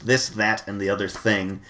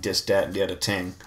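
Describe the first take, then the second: First: The words begin with a normal th sound. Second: The th sounds are replaced by d and t. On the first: The speaker calls it right. "the phrase that I had to say was this" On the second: The speaker calls it wrong. "as a kid I sounded like a mobster by saying"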